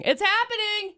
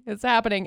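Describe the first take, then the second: First: High, sing-out excitement; excited. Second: Said in the usual way. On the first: Real, not acted. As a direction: pitch it way up with glee. Repeats phrase, second time excited.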